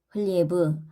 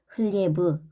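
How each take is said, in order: First: The word ends in a voiced, drawn-out 'b' sound. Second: The same.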